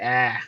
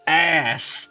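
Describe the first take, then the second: First: The word is said without the final s sound. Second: The word is said fully with the s sound. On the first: "I don't say ah" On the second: "I use the S. I say it with my whole chest"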